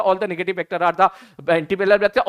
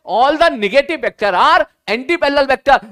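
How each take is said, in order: First: Rattled off as one item in a quick list; deliberately fast. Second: "all the negative vector are anti-parallel vector" slow, high and loud, weight on "all"; emphatic slow statement. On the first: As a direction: hurry through it with little emphasis. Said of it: "मैं जानबूझ के fast बोल रहा हूं". (जानबूझकर जल्दी-जल्दी, सपाट गिनाते हुए) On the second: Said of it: "ध्यान से सुनना।". ("all the negative vector are anti-parallel vector" धीरे, ज़ोर से, "all" पर बल देकर) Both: Shown as a demonstration.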